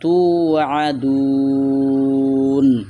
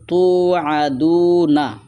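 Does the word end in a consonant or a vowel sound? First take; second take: consonant; vowel. First: The word stops on n with a long vowel. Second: The word ends with a short vowel after n. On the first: "এখন যদি আমরা থামি তাহলে হবে তু আদুন, নুনটা সাকিন হবে, লম্বা হবে তিন আলিফ" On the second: "এখানে আছে তু আদু না"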